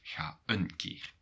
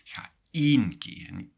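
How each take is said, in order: First: The word een is reduced and unstressed. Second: The word een is fully stressed and clear. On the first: A softened, polite way to say go there. The speaker calls it wrong. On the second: Go there only one time, not twice. The speaker calls it right. "really make a difference in the pronunciation"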